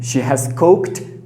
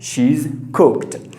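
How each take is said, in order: First: The word has is said in full. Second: The word has is shortened onto she.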